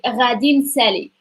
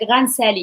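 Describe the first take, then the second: First: The first word is said in full. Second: The first word is partly merged and shortened. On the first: "the full form of like future is like Radin Sally" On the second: "some people combine it"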